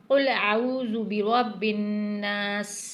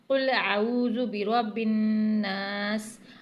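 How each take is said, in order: Both takes have the same delivery.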